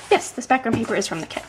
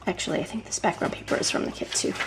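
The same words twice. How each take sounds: First: Said in the usual way. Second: Half-whispered, much softer, to herself; muttered aside. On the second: Real, not acted. Crafter checking her paper, muttering to herself. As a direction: think aloud under your breath.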